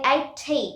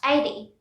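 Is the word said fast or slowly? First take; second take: slowly; fast. First: The word is said slowly and carefully. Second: The word is said very fast. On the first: The speaker calls it wrong. "We don't say eighty, that is wrong" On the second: The speaker calls it right. "We say very fast"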